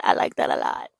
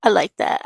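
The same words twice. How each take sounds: First: Breathy delighted whisper; hushed, pleased whisper. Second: Said in the usual way. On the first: Real, not acted. Whispered repeat of own reaction.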